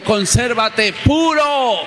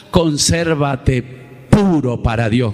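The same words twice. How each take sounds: First: High, slow, drawn-out chant of each word; call for the church to repeat. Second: Solemn command. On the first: Shown as a demonstration. Pastor leading the church to repeat, slow high chant. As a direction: lead the congregation in a slow, lifted call. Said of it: "Digan conmigo". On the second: Acted. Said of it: "ahí es donde Dios dice".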